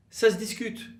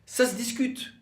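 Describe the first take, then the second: No difference in how they are said.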